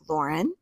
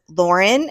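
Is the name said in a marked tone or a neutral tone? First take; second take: marked; neutral. First: The name is said in a marked, shifted tone. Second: The name is said in a plain, neutral tone. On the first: The speaker calls it right. "He's like" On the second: The speaker calls it wrong. "but he didn't say it like that"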